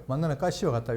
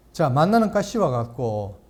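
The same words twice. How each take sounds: First: Said in the usual way. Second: 만나는 read slowly with weight on 만나는; slow emphatic reading. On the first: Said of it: "여기 보세요". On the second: Shown as a demonstration. Pastor reading the verse to the class, slow stress on 만나는. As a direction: dwell on 만나는, slow and deliberate.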